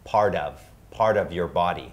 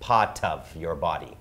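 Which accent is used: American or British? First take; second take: American; British. First: The t in part is a soft linked flap. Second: The t in part is a clear crisp t. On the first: "ถ้าเราพูดเร็วๆนะครับ Part of เชื่อมเป็น ... อย่างนี้ครับ" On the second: "หรือชาวอังกฤษ"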